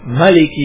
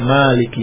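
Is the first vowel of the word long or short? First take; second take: short; long. First: The first vowel is kept short. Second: The first vowel is held long. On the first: It means owner. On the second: It means king.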